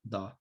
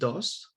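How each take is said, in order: First: The s is dropped and the vowel opens. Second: The final s is pronounced clearly. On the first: "is pronounced do" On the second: "the word dos"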